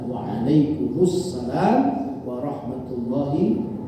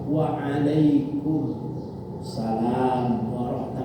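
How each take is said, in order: First: The words flow together without any pauses. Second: The words are separated by short pauses. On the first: "yang paling bagus adalah disambungkan" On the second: "kalau mau dipisah-pisah juga nggak apa-apa"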